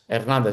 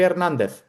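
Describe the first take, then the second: First: The name ends with an s sound. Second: The name ends with a th sound. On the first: It is said the way an Argentine would say it. "αναφέρεται σε έναν Αργεντινό που τον λένε Ερνάντες" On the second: It is said the way a Spaniard would say it. "Ο Ισπανός θα τον πει Ερνάντεθ"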